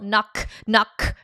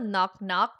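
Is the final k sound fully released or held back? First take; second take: released; held back. First: The final k sounds are fully released. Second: The final k sounds are held back, unreleased. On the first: The speaker calls it wrong. "you don't go" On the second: The speaker calls it right. "it's just the soft K where you block your throat"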